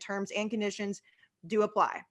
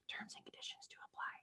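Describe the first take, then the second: First: It is said in his normal voice. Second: It is said in a put-on little voice.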